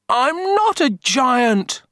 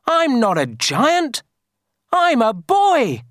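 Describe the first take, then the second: First: High, slow, mock-tearful boy. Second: Put-on high-pitched boy's protest; shouting. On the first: Kipper crying before the villagers, tearful. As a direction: plead as a little boy starting to cry. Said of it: "Kipper began to cry". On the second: Kipper telling villagers he's a boy, shouting. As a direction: insist loudly, voice pitched up. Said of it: "shouted Kipper". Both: A narrator's reading.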